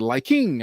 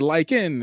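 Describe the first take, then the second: First: The ending is a full 'ing' with the g. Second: The ending is a short 'in' without the g. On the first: The speaker is being formal and proper. "with my teacher, I have to say liking" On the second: The speaker is relaxed among friends. "I can say like in"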